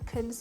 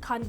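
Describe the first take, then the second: First: The word has a short, reduced vowel. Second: The word has a full, open vowel. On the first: This is how native speakers say it. "እነሱ ክን ሲሉ" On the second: This is how learners say it. "እኛ አሁን ካን ብለን"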